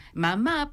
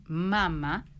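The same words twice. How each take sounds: First: "Mamá" con acento fuerte en la última A; "Mamá" cargando la segunda sílaba, más alto y fuerte; stress on final a. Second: "mama" con acento en la primera ma; "mama" llana, sin tilde, a la antigua; stress on first syllable. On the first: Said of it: "ese mamá con la tilde en la A". ("Mamá" con tilde, acento agudo) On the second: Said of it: "decían". ("mama" acentuada en la primera sílaba) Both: Shown as a demonstration.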